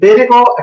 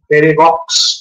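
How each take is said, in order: First: The name ends on a plain vowel sound. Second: The name ends with a sounded consonant cluster. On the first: The speaker calls it right. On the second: The speaker calls it wrong.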